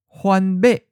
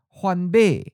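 First: The last syllable is high and cut short. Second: The last syllable falls from a high pitch. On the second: "the eighth tone is often of a high falling tone"

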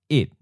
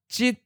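First: It is said in the fourth tone. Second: It is said in the eighth tone. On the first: This is the literary reading of the number. "it 4th tone" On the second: This is the colloquial reading of the number. "jit 8th tone"

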